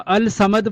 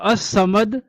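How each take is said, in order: First: The article's l sound is clearly pronounced. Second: The l merges into a doubled s sound. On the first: The speaker calls it wrong. "अल समद पढ़ेंगे तो वो गलत होगा" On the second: The speaker calls it right. "इसको अस समद पढ़ा जाएगा"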